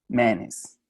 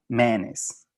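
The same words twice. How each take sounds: The two takes are said the same way.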